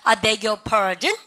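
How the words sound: The pitch rises at the end. The speaker asks the listener to say it again. "끝을 한번 올려보세요"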